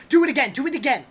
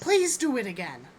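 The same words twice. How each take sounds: First: Put-on eager, insistent kids' demand; children going wild. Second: Dutiful, more measured request; polite child's plea. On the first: Children begging for another magic trick, excitedly demanding. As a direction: play excited children clamouring for more. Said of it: "They go wild". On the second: Acted. Child reminded to say please, politely asking for more. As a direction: ask like a child just reminded of manners. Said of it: "We say please".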